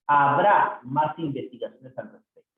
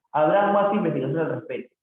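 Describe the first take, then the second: First: "Habrá" stretched out and set apart; stress on Habrá. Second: Said in the usual way. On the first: Shown as a demonstration. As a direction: lean hard on "Habrá", then carry on. Teacher stresses the corrected verb.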